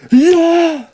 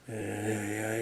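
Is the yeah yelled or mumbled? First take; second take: yelled; mumbled. First: It is yelled loudly. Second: It is mumbled flatly.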